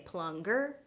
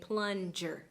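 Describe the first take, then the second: First: The middle consonant is not a j sound. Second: The middle consonant is a j sound. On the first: The speaker calls it wrong. "We don't say plunger" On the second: The speaker calls it right. "we say plunger with the j sound"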